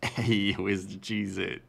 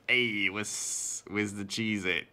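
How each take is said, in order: First: It is said in a refined, polished voice. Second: It is said in a crude rat voice.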